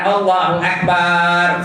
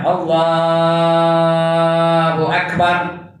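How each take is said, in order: First: The final syllable bar is drawn out long. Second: The syllable Allah is drawn out long. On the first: The speaker calls it wrong. "Bar yang panjang bar tu. ... Salah" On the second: The speaker calls it right. "Yang panjang boleh Allah boleh panjang"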